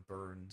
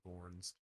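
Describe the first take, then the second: First: The vowel sounds like the one in 'burn'. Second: The vowel sounds like the one in 'born'. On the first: "and Burns and whatever" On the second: "like Jason Bourne"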